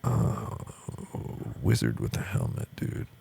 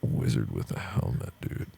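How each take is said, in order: First: Lightly voiced stoner artist; stoned Toriyama. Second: Much lower, lazy stoner voice; stoned Toriyama. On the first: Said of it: "finishes the drag of his cigarette and goes". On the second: Retold or imitated. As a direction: voice a stoned artist. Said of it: "and says".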